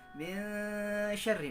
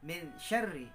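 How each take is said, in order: First: The n is blurred with a briefly held nasal hum. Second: The n is pronounced clearly without a held hum. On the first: The speaker calls it right. "harus disamarkan dan juga didengungkan, ditahan sebentar" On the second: The speaker calls it wrong.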